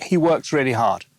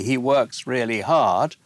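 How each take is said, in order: First: Plain falling tune; "hard" falls as a statement. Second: Slow, rising on hard; "hard" rises at the end, slowly; rising question tune. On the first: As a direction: state it flat as fact. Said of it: "That's a statement". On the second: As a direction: turn it into a question. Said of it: "if I say". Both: Shown as a demonstration.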